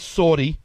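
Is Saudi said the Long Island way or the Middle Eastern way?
Long Island. It is said with a Long Island pronunciation. "I'm from Long Island. I say Saudis"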